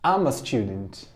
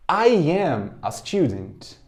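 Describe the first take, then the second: First: I'm a student, I'm said as one quick syllable; teacher modelling the contraction I'm a student; contracted form. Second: I am a student, slow with both words I and am full and separate; teacher modelling the long form I am a student. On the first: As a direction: glide I'm a student together, short and smooth. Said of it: "Forma contraída". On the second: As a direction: spell out I am a student unhurried, each word clear. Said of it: "Forma longa". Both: Shown as a demonstration.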